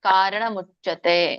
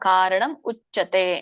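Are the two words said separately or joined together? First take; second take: joined; separated. First: The two words are linked into one. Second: The two words are said separately. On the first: "ಅಥವಾ" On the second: "ನೀವು ಬಿಡಿಸಿ ಹೇಳ್ಬೋದು ಅದನ್ನ"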